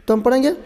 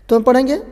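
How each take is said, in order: The two takes are said the same way.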